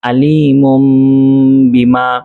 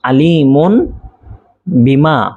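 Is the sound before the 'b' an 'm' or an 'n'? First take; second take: m; n. First: A nasalized m sound comes before the b. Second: A plain n sound comes before the b. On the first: The speaker calls it right. "উচ্চারিত হবে আলিমুম বিমা" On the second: The speaker calls it wrong. "এজন্য মূলত ছিল আলিমুন"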